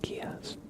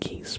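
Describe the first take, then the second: First: It sounds like chaos with a G. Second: It sounds like the word geese. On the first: The speaker calls it right. "but like Kias. / chaos with like a G instead" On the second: The speaker calls it wrong. "So not geese"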